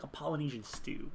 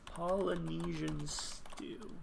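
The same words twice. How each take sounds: First: Said in the usual way. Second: Slow, soft POLYNESIAN STEW; drawn out. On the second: Real, not acted. Player to self while typing a search, drawn out. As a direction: stretch out every syllable of POLYNESIAN STEW.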